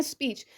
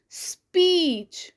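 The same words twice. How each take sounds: First: Said in the usual way. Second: "स्पीच" with the ई drawn out long and slow; stretched vowel. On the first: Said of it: "normally हम बोल रहे हैं". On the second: Shown as a demonstration. Teacher contrasting normal and stretched "स्पीच". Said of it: "हमने उसे थोड़ा सा stress किया".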